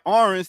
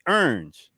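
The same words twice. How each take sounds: First: The word is said in a standard accent. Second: The word is said in a Southern accent. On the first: "instead of saying orange" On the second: "down south, ... they say orange with an E"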